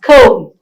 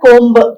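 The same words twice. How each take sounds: First: The final b sound is silent. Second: The final b sound is pronounced. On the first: The speaker calls it right. "the b is silent" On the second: The speaker calls it wrong. "It's not"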